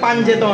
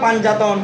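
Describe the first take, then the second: First: An 'e' vowel joins the two parts. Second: An 'a' vowel joins the two parts. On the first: "অনেকে বলে পাঞ্জেতন এগুলো সবগুলো ভুল" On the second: "অনেকে বলে পাঞ্জাতন ... এগুলো সবগুলো ভুল"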